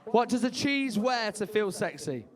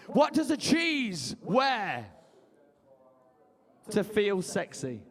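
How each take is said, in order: First: Said in the usual way. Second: Slow joke setup. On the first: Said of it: "joke repeated". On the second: Shown as a demonstration. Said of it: "joke setup".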